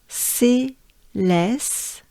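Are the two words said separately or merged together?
separately. The two words are said as separate units.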